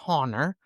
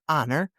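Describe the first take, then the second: First: The word begins with an H sound. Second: The word begins without an H sound. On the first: The speaker calls it wrong. "not your honor" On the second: The speaker calls it right. "we have a silent H"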